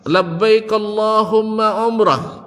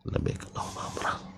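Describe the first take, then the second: First: The phrase is said in a loud voice. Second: The phrase is said in a low voice. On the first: People standing farther away can hear it. "Diucapkan dengan suara keras" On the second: Only someone very close can hear it. "Tidak terdengar suaranya, tapi dia ucapkan dengan lisannya"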